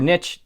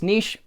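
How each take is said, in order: First: Niche said as NITCH; niche rhyming with pitch; alternative pronunciation. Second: Niche said as NEESH; niche rhyming with leash; alternative pronunciation. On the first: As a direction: say niche with a short i, ending in tch. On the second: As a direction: say niche with a long ee, ending in sh. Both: Shown as a demonstration. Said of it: "not sure how you say it".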